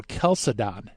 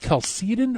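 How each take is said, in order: First: Chalcedon as the alternative pronunciation; other pronunciation. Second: Chalcedon as one of two rival pronunciations. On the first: Host offers guest the alternative, second pronunciation of Chalcedon. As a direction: say "Chalcedon" the second of two ways. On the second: Host asks guest which is right, first pronunciation of Chalcedon. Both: Shown as a demonstration. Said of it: "I've heard it both ways".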